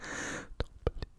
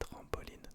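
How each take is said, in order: First: The word is whispered without full voice. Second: The word is spoken in a normal voice.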